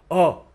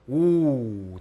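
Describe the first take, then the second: First: The vowel is said without lip rounding. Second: The vowel is said with rounded lips. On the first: The speaker calls it wrong. "잡고서 해볼게요. ... 어, 으가 되죠" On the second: The speaker calls it right. "동그랗죠?"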